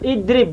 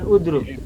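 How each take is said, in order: First: The word starts with an 'i' vowel. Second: The word starts with a 'u' vowel. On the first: The speaker calls it right. "idrib bukan udrub" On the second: The speaker calls it wrong. "bukan udrub"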